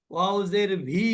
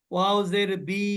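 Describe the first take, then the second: First: ভি said with a v sound; ওয়াও জের ভি with a buzzing v; wrong vi. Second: বি said with a plain b sound; ওয়াও জের বি with a hard b; wrong bi. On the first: Teacher imitates students saying ভি by mistake. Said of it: "ভিও না". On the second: Teacher imitates students saying বি by mistake. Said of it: "বিও না". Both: Shown as a demonstration.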